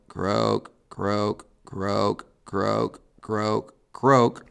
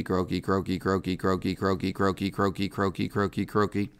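First: Each croak said slowly with a pause between, softly; slow evenly spaced croaks; imitating a slow frog call. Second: Quick run of croaky croaky, much softer and lower; soft rapid croaking chatter; imitating a rapid frog trill. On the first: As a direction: spell out a measured croak, one at a time. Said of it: "So this species goes croak". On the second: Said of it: "Hya chrysocellus goes Croaky". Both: Shown as a demonstration.

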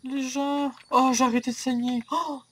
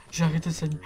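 First: High excited relief; relieved. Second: Said in the usual way. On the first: Real, not acted. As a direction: burst out with relief. Bleeding stops, relief.

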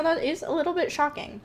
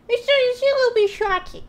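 First: Said in the usual way. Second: Much higher put-on voice; playful high-pitched mock shock. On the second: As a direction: echo it in a silly, high-pitched voice. Repeats own remark in put-on voice.

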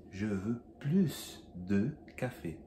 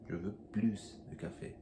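First: Je veux plus de café, slow, plus with a clear S; slow, sounding the S on plus; S pronounced. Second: Je veux plus de café whispered, plus with a hissed S. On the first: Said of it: "quando eu digo". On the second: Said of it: "Então, pronuncia". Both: Shown as a demonstration.

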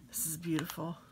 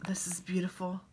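First: Said in the usual way. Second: Breathy awed whisper. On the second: Real, not acted. Whispering in awe over a friend's gift. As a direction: hush it, admiring the card. Admiring the letter contents.

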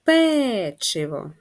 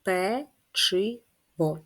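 First: Печиво slow, first syllable ПЕ stressed and louder. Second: Slow, split into syllables. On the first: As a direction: lean on ПЕ in печиво. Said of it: "І поставимо наголос". (наголос на перший склад ПЕчиво) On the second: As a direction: stretch печиво out slowly as пе-чи-во. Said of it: "Скільки складів має слово печиво?". (повільно, по складах) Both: Shown as a demonstration.

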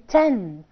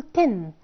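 First: "تن" drawn out with an open e; slow, corrective "تن"; correct ten. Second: "تن" with a narrow i, like "tin"; the common mistake, "تن" as "tin"; habitual wrong ten. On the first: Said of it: "لا، هي تن". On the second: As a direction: close the vowel in "تن". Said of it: "تعودنا نقول تن". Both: Shown as a demonstration.

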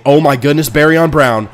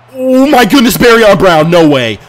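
First: Excited. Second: Much higher, much louder yell of disbelief; shocked yell at the game; disbelieving shout. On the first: Reacts to big kick return. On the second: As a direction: scream it as the return breaks open. Kick return touchdown against him. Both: Real, not acted.

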